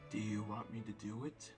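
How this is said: It is said in a deep voice.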